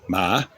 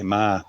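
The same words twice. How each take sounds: First: It carries the tone that means dog. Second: It carries the tone that means come. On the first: It means a dog. "but ma is dog" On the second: It means to come. "ma is come"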